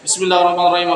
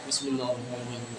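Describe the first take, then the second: First: It is said very loudly. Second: It is said quietly, just audible.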